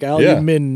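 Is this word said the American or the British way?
British. It is said in a British accent. "And they're like"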